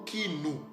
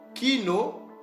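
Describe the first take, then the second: First: The word ends with a u vowel. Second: The word ends with an o vowel. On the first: "ou soit le son du U" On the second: "il a le son soit du O"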